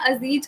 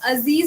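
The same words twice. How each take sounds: First: The middle consonant is a 'j' sound. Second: The middle consonant is a 'z' sound. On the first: It means an impotent man. "अगर आपने नुक्ता हटाया अजीज कर दिया" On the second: It means a dear, beloved friend. "वो होता है आपका प्यारा डियर दोस्त"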